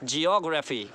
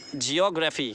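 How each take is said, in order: First: The stress is on the second syllable. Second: The same.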